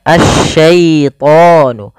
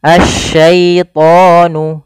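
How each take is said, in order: The two takes are said the same way.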